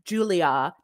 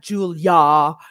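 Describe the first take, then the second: First: The name is said with three separate syllables. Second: The name is said with only two syllables. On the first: The speaker calls it right. "I have always understood Julia" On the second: The speaker calls it wrong. "not Julia"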